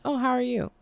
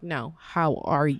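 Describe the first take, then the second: First: It is said casually, without real interest. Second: It is said sincerely, with real concern.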